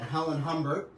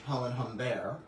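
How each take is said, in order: First: It is said with a plain English accent. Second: It is said with a French accent.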